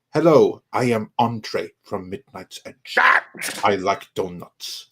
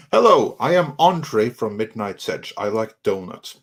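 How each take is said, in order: First: Put-on slow, measured Andre accent after a punched hello; Tom doing Andre's accent. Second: An off-target attempt at Andre's accent; Andre's accent, botched. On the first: Host retrying the Andre line, slow imitated accent. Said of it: "try to sound like Tom doing the accent". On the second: Host obliging a chat request to do Andre, botched accent. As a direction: try Andre's accent and miss it slightly. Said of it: "I think I got the accent wrong".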